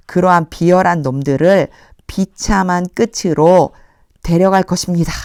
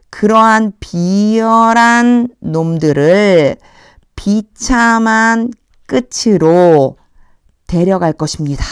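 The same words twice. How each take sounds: First: Said in the usual way. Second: Slow, weighty reading with 비열한 stressed; slow literal reading. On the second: Shown as a demonstration. Teacher reading the answer in Korean, slow and stressed. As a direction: lean on 비열한 and 비참한, slowly. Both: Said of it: "직역을 하면".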